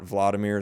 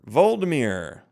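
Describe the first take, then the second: First: The name begins with the sounds 'Vlad'. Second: The name begins with the sounds 'Vold'. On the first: The speaker calls it wrong. "I've been saying it wrong the whole time" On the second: The speaker calls it right. "it's Voldemort"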